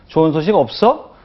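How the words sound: It is said sharply, as if demanding answers. The question presses and blames the listener. The speaker calls it wrong. "따지듯이 추궁하듯이"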